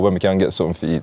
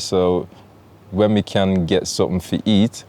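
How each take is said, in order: First: It is said fast. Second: It is said slowly.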